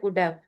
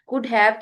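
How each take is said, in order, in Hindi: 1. ये शब्द मिलकर एक छोटा शब्द बन जाते हैं। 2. दोनों शब्द पूरे और अलग-अलग बोले जाते हैं। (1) "दो वर्ड्स को मिला के एक वर्ड बना देते हैं" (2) "की बजाय"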